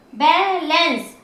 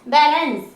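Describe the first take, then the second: First: balance slowly, as बै and lens; slow, segmented balance; syllable by syllable. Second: Said in the usual way. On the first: Shown as a demonstration. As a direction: draw out both parts of balance. Teacher splits word into syllables.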